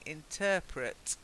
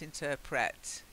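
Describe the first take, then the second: First: The stress is on the second syllable. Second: The stress is on the first syllable. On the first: The speaker calls it right. "I think I'm right in saying interpret" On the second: The speaker calls it wrong. "not interpret"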